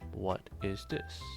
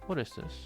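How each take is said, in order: First: It is asked in a plain, neutral way. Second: It is asked with a curious, interested tone.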